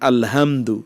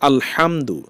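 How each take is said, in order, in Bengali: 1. h ধ্বনিটি একটি সাধারণ, হালকা শ্বাসের মতো। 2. h ধ্বনিটি গলা থেকে আসা একটি কর্কশ ধ্বনি। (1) "না বলে বলেন আলহামদু" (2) "হা আলহামদু"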